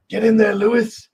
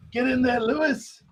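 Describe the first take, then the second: First: High, loud mock British cheer; terrible British impression. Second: Very high mock British cheer; terrible British impression, higher. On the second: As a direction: stretch it higher like a British commentator. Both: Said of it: "my terrible impression".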